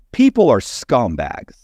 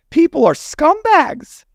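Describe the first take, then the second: First: People are scumbags said slowly, weight on People with a falling end; slow, deliberate. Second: People are scumbags laughed out, much higher and slower; laughing. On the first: To the host about clients, slow and firm. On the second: To the laughing host, the verdict repeated through a laugh. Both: Real, not acted.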